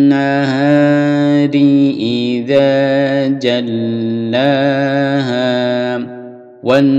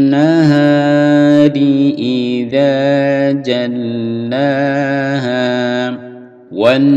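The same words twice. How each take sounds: Both takes have the same delivery.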